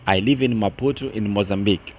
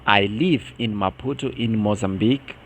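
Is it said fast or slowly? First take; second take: fast; slowly. First: It is said fast. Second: It is said slowly.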